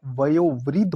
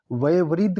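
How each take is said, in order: First: वयोवृद्ध with clear o, "vayo-vriddh"; correct pronunciation. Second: वयोवृद्ध without the o, "vaye-vriddh"; wrong pronunciation. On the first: Teacher correcting the word, वयोवृद्ध with clear o. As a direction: sound the o in वयोवृद्ध. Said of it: "होता है". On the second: Teacher showing the error, वयोवृद्ध as "vaye-vriddh". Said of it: "नहीं होता". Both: Shown as a demonstration.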